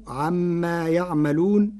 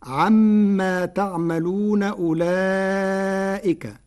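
First: يعملون with y; يعملون, Warsh style; Warsh reading. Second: Slow chanted تعملون with t; تعملون as in Hafs; Hafs reading. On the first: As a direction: say يعملون with y not t. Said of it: "بياء الغيب". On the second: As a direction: recite تعملون with t, long and slow. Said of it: "قرأ ورش كلمة "تعملون" بياء الغيب". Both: Shown as a demonstration.

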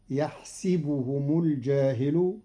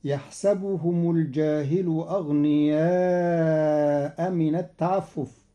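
First: يحسبهم with a kasra on the sin, yahsibuhum; Qalun reading. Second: يحسبهم with a fatha on the sin, yahsabuhum; Hafs reading. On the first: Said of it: "قرأ قالون كلمة "يحسبهم" بكسر السين". (يحسبهم بكسر السين) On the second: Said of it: "بكسر السين". (يحسبهم بفتح السين) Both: Shown as a demonstration.

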